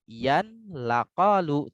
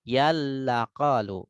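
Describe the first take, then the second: First: The n sound is clearly pronounced before the l. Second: The n sound merges fully into the l. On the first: The speaker calls it wrong. "tidak yan laqalu" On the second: The speaker calls it right. "tapi yal laqalu"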